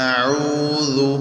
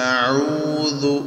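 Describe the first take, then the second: The two takes are said the same way.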